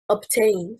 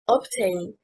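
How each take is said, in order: First: The stress is on the second syllable. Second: The stress is on the first syllable. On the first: The speaker calls it right. "stressing on the second syllable" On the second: The speaker calls it wrong. "stressing on the first syllable, is incorrect"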